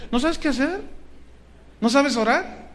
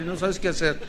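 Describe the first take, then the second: First: "¿No sabes qué hacer?" thrown back high with a rise on "sabes"; preacher challenging the congregation, high and rising on "sabes"; challenging question. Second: Said in the usual way. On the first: Shown as a demonstration.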